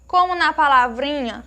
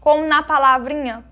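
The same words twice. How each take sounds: The two takes are said the same way.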